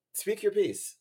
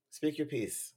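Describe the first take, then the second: First: Higher, louder mock-grand announcing. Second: Said in the usual way. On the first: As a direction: call out the invitation. Host prompting caller theatrically.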